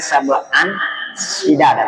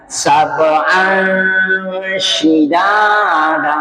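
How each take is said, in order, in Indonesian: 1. Bunyi n diucapkan dengan jelas dan singkat. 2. Bunyi n samar, sengau, dan ditahan lama. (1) "bukan lagi sab'an shidada" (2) "tidak bunyi n lagi, tapi samar-samar"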